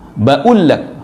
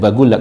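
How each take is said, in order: First: The qaf is dropped as a glottal stop. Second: The qaf is said as a hard g.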